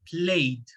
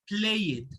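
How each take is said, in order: First: The ending is a plain D sound. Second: The ending is not a plain D sound. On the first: The speaker calls it right. "The pronunciation is played" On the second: The speaker calls it wrong. "not played"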